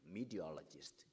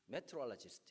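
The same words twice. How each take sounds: First: It has an American accent with flatter pitch. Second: It has a Korean accent with high, lively pitch. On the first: Americans can understand it. The speaker calls it right. "이렇게 해야 발음 알아듣습니다" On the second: Americans can hardly understand it. The speaker calls it wrong. "인터네이션 높여서 영어를 하면 못 알아듣습니다"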